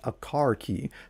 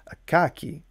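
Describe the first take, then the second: First: It is said in a general American accent. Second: It is said in a Boston accent. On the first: "commonly referred to as a car key throughout all fifty United States" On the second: "people in a certain city named Boston seem to refer to it as, let's see if I can do this"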